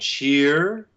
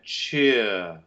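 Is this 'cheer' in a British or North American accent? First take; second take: North American; British. First: A closed vowel followed by an R-coloured schwa. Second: An open vowel gliding to a plain schwa. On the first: "In North American pronunciation, ... a closed E and then a rhotic schwa" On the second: "It should open to I, and then the R reduces to schwa"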